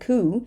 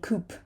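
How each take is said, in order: First: The final p sound is silent. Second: A final p sound is pronounced. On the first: The speaker calls it right. "It's a coup" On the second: The speaker calls it wrong. "We're not going to say coop"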